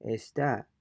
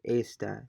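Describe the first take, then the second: First: Está as es-TA, weighted ending; Está with a strong final á; stress on final A. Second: Esta as ES-ta, light final A; stress on first syllable. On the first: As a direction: repeat Está stressing the last syllable. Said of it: "it's pronounced differently". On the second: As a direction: repeat Esta front-stressed. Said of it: "which syllable has the main stress". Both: Shown as a demonstration.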